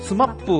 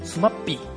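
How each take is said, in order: First: The name ends in a short 'pu' sound. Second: The name ends in a clear 'pi' sound.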